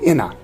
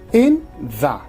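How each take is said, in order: First: The th sound merges into the nasal. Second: The th sound keeps its friction.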